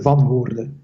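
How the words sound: The name is said with Belgian pronunciation. "I'm actually from Belgium, so when you uh, pronounce it here"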